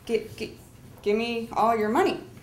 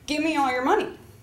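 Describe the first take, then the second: First: It is said with confused stuttering hesitation. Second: It is said smoothly without hesitation.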